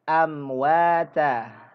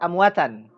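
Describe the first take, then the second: First: The word ends on a long a vowel. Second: The word ends with a final n sound. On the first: This is how it is read when stopping at the end. "tanwinnya tidak kita tidak baca. Jadi jadi kita baca amwata" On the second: This is the full form with tanwin. "ini di akhir kalimat amwatan"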